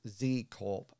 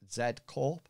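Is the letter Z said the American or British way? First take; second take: American; British. First: The letter Z is said the American way. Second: The letter Z is said the British way. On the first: "it's actually pronounced Z Corp uh, in the American way" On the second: "I would pronounce it Z Corp"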